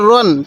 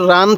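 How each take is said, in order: First: The vowel is a rounded 'o' sound. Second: The vowel is an open, unrounded 'ah' sound. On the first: The speaker calls it right. "র আলিফ দুই জবর রন" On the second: The speaker calls it wrong. "অনেকেই র আলিফ দুই জবর রান পড়ি না"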